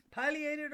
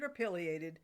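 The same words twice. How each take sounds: First: "pileated" with a long i, like pie; first option, "pileated" as PIE-lee-ated; long-i pronunciation. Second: "pileated" with a short i, like pill; second option, "pileated" as PILL-ee-ated; short-i pronunciation. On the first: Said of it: "pronounced as a long I". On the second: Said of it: "is this snazzy dinosaur properly called". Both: Shown as a demonstration.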